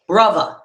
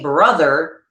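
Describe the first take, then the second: First: The middle consonant is a v sound. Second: The middle consonant is a th sound. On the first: "they say brother. It emphasizes the uh, T H by, by the V sound being in place" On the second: "When we say brother"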